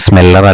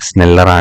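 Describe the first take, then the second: First: The second sound is an m. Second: The second sound is an n. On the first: The speaker calls it wrong. "സ്മെല്ലർ അല്ല" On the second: The speaker calls it right. "നായാണ് സ്നെല്ലർ"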